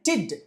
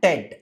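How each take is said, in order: First: The ending has a short i vowel. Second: The ending has a short e vowel. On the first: The speaker calls it right. "that ted must be pronounced like tid" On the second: The speaker calls it wrong. "not ted"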